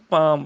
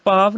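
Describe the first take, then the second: First: ਪਾਮ closing on m; correct reading shown. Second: ਪਾਵ ending in a v sound; wrong reading shown. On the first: Teacher correcting the scripture reading, ਪਾਮ with final m. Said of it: "ਪਾਵ ਨਹੀਂ". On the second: Teacher showing students the misreading, ਪਾਵ with final v. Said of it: "ਇੱਥੇ ਇਹਨੂੰ ਪਾਵ ਪਾਠ ਨਹੀਂ ਕਰਨਾ". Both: Shown as a demonstration.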